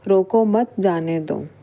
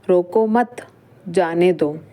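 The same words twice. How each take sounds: First: It is said without any pause inside. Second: There is a pause right after mat. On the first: The meaning is unclear. "यह एक normal वाक्य है जिससे हमें कुछ भी अर्थ स्पष्ट नहीं हो रहा है।" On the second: Do not stop the person; let them go. "मतलब यहाँ पर जाने देने की बात हो रही है।"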